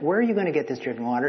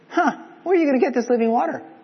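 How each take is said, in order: First: It is asked in a sincere, plain tone. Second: It is asked in a snarky, sarcastic tone.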